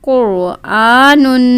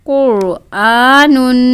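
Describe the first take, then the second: No difference in how they are said.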